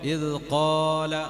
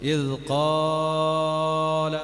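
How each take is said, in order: First: The long vowel is held for about two counts. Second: The long vowel is stretched far beyond two counts. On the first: The speaker calls it right. "അത്ര നീട്ടാൻ പാടുള്ളൂ" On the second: The speaker calls it wrong. "അങ്ങനെ നീട്ടാൻ പാടില്ല"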